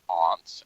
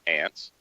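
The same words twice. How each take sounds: First: The vowel is a broad 'ah' sound. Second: The vowel is a flat 'a' as in ant. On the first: It means a relative's home. "You're staying at your aunt's as opposed to" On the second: It means the insects' home. "otherwise you'd be building a colony"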